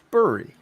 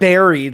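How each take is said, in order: First: The first vowel sounds like the one in burr. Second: The first vowel sounds like the one in Barry. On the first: The speaker calls it right. "It's buried. B U R Y" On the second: The speaker calls it wrong. "It's not buried like Barry Allen"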